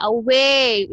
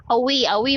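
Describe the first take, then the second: First: "away" with a full, stretched "way"; corrected pronunciation. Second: Quick "away" with a short "wi"-like ending; mispronunciation. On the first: Teacher corrects the students' word, full pronunciation. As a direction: open out and lengthen "way" in "away". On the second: Teacher imitates how students say it, quick mispronunciation. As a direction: rush "away", closing "way" towards "wee". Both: Shown as a demonstration. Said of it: "If you pronounce it with the mouth".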